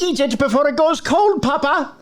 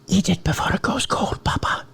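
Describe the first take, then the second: First: It is said in a normal voice. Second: It is said in a whisper.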